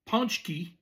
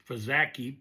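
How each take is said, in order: First: It is said with a 'nch' sound, 'poonch-kee'. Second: It is read letter by letter, like 'pa-zah-kee'. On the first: The speaker calls it right. "but pronounced Punchki" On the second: The speaker calls it wrong. "spelled like Pazaki"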